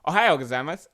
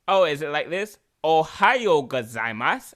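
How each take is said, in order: First: Loud, brisk Japanese greeting with a Spanish lilt; Spanish-sounding Japanese. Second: Put-on sexy Japanese accent.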